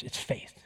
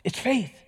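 First: Hushed reveal of the answer; whispered. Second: Higher proclaimed answer after the hush; declared. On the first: Preacher revealing the key to the congregation, hushed whisper. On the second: Preacher repeating the answer to the congregation, declared aloud. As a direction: ring it out now. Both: Real, not acted. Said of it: "Here's what it is".

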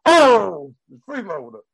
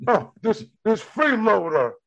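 First: Andrew. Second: High mock complaint about a freeloader. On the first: Acted. Comic does an impression for co-host, loud brash comic voice. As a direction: belt out the "Oh", then toss off the word. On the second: Comic riffs on the snorting dog, mock complaint. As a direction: grumble it in a raised, put-on voice. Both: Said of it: "let me do Andrew".

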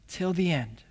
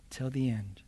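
First: Said in the usual way. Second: Till the end whispered, soft and falling; whispered echo. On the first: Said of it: "repeated echo". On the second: Shown as a demonstration. Preacher repeating the phrase as a hushed whisper. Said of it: "repeated softly".

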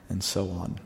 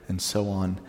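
No difference in how they are said.

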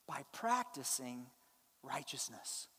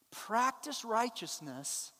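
First: Low and soft, quoting the verse gently; hushed, low reading. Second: Slow, with "Practice" stressed and drawn out; slow emphatic. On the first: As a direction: drop the voice low and softly read "By practicing righteousness". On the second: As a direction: lean hard on "Practice" and let "righteousness" fall. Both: Shown as a demonstration. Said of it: "look how he says to do it".

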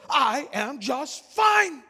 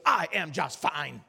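First: High, slow indignant shout; loud, angry retort. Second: Slow, low, deliberate brush-off; suddenly curt reply. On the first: Offended passenger snapping back at the preacher, loud and angry. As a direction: punch out each word, offended. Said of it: "talking so loud and so angrily". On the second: Passenger bristling at a Bible question, slow and low. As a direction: weigh each word, shutting the talk down. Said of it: "like a switch was flipped". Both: Retold or imitated.

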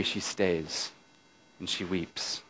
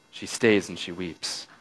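First: Barely above a breath, mournful; hushed. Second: Stays leaned on, the rest soft and low; stress on stays. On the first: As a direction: let it fall away almost silent. She stays and weeps, gently retold. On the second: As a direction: press gently on stays, keep it hushed. Repeats the line, leaning on stays. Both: A narrator's reading.

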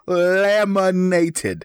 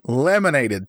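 First: LAMINATED stretched very slowly, higher; drawn-out LAMINATED. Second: Said in the usual way. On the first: Acted. Co-host boasts about the laminated card, drawn-out LAMINATED. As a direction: savor every syllable of LAMINATED.

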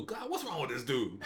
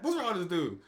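First: Laughing exasperation. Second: Exasperated. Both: Retold or imitated. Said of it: "I mean, just like that".

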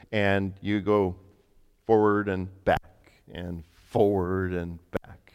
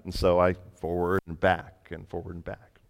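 First: Slow, drawn-out steps of the instructions; slow demonstration. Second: Said in the usual way. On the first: Retold or imitated. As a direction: spell out each stroke slowly, like a trainer. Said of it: "he showed me how to use a vacuum". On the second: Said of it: "now you try it".

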